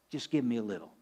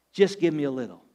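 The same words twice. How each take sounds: First: Soft, tender coaxing; tender plea. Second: Said in the usual way. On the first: Acted. God speaking tenderly to the widow, soft and coaxing. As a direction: gently ask for just a little. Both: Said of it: "You can hear the tenderness in his voice".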